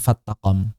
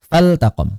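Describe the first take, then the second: First: The l is merged into the following t. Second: The l is clearly pronounced before the t. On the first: The speaker calls it wrong. "jangan dikira lam syamsiyah sehingga nanti diidghamkan" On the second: The speaker calls it right. "Lamnya lam amr"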